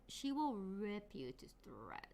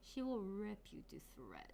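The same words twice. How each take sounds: First: "will" leaned on, drops low and slow into a soft menacing threat; "she will rip you to shreds" said low, slow and soft, stressing "will". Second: "will" pressed, the rest dropped to a much softer hushed menace; "She will rip you to shreds" breathed quietly, stressing "will"; hushed threat. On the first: Streamer hyping a VTuber model's ranking, low slow menace. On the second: Repeating the ranking line as a soft hushed menace. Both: Shown as a demonstration.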